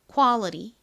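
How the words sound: It is said American-style with a flapped t. The speaker calls it right. "실제 미국식 원어 발음으로는"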